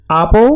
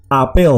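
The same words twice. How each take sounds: First: "apple" as Dutch AH-pol, stress on the first syllable; acento inicial. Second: "apel" as ah-PEL, stress on the last syllable; acento final. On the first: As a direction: say "apple" as AH-pol, weak second vowel, tune rising. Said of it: "esta es apple y esta es apel". ("apple" como Á-pol, acento en la primera sílaba) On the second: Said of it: "sino un acento agudo". ("apel" como a-PÉL, acento en la última sílaba) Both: Shown as a demonstration.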